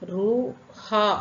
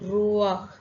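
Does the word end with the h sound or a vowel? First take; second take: vowel; h sound. First: The h sound comes before the final vowel. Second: The vowel comes first, then the final h. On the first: The speaker calls it wrong. "Read பண்ணக்கூடாது" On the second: The speaker calls it right. "அப்போ எப்படி ப்ரொனவுன்ஸ் பண்ணணும்?"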